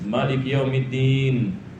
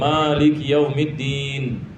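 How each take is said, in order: First: The vowel after the m is kept short. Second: The vowel after the m is drawn out long. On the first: This is how the imams in Yemen read it. "orang sana yang ini mereka baca" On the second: This is how it is read locally. "Kita baca"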